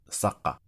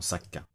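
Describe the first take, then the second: First: The middle consonant is made deep in the throat. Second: The middle consonant is a plain k sound. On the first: The speaker calls it right. "on dit Saqa" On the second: The speaker calls it wrong. "non Sakka"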